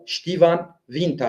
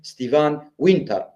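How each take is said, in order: First: It begins with sht and uses an f sound. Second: It begins with st and uses a w sound.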